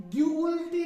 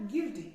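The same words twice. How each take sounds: First: गिल्टी with the U sounded, "gu-ilti", loud; wrong pronunciation. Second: गिल्टी said straight as "gilti", silent U; correct pronunciation. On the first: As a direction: say गिल्टी wrongly, voicing the silent U. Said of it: "नहीं करना है". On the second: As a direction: say गिल्टी simply, no U sound. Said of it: "हमने पढ़ना है सीधा गिल्टी". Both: Shown as a demonstration.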